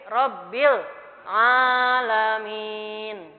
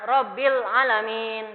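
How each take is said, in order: First: The first vowel of alamin is long. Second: The first vowel of alamin is short. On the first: The speaker calls it right. "tapi Robbil alamin tadi" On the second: The speaker calls it wrong. "Jadi bukan"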